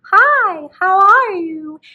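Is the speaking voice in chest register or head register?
head. A lighter, higher voice resonating in the head. "for head register, we're going to speak higher in what some of my students like to call the Disney princess voice"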